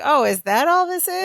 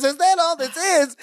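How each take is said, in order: First: Higher-pitched, lightly acted disbelief; dismissive retold question. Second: High-pitched indignant mock scream; Balki. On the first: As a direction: brush it off as nothing much. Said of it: "Jennifer is sort of on Larry's side". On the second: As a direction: throw the question back in outrage, without real volume. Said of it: "he's screaming himself into a headache".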